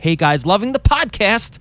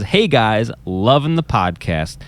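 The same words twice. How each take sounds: First: It is said excitedly, with exclamation. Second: It is read flatly, without excitement.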